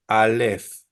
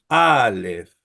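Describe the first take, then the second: First: "Aleph" with a short A, stress on the final -leph; stress on second syllable. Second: "Aleph" with a long, accented A: AAH-leph; stress on first syllable. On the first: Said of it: "no decimos Aleph". ("Aleph" con acento en la última sílaba, a-LEPH) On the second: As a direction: draw out the first A of "Aleph", then drop onto -leph. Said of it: "nosotros decimos Aleph". ("Aleph" con la A larga y acentuada: ÁA-lef) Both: Shown as a demonstration.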